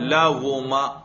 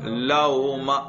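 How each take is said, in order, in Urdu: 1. درمیانی آواز پورا گول واو ہے۔ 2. درمیانی آواز ہمزہ اور واو کے بیچ میں ہے۔ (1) "اس کو واو کے ساتھ پڑھو" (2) "نہ پورا واو ہو نہ حمزہ ہو"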